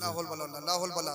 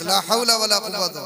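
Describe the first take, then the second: First: "ला हौल वला" cut short, final vowels dropped, low and soft; careless recitation. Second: "ला हौला वला कुव्वता" in full, every vowel sounded, firmly projected; proper recitation. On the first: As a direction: mumble a truncated "ला हौल वला" twice over. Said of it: "ला हौल वला से कुछ नहीं होता". ("ला हौल वला" की दबी, अधूरी अदायगी) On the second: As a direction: lead the crowd in a complete, careful "ला हौला वला कुव्वता". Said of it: "सही करके अदायगी होने चाहिए". ("ला हौला वला कुव्वता" की पूरी, साफ़ अदायगी) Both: Shown as a demonstration.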